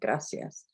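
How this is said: The c is said with an s sound.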